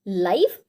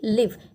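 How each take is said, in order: First: The vowel sounds like 'eye'. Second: The vowel sounds like 'ih' in 'sit'. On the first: Broadcast as it happens. "L I V E, लाइव" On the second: To reside somewhere. "L I V E, लिव"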